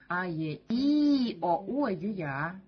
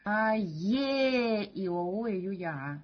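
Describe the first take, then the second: First: The third vowel is loud, the rest quiet. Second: The second vowel is loud, the rest quiet. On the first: "Третья буква будет уже выделяться И" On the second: "вторую букву сделать заглавной"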